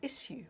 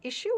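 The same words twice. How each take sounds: First: The middle consonant is an 's' sound. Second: The middle consonant is a 'sh' sound. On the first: This is the older, spelling-based form. "go back far enough, it was pronounced as issue" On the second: This is the speaker's usual form. "I would pronounce this as issue"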